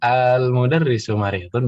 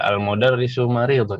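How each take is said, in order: First: The first vowel is drawn out long. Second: The first vowel is short. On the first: It asks whether the teacher is sick. "kalau pakai panjang" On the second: It states that the teacher is sick. "kalau nggak panjang"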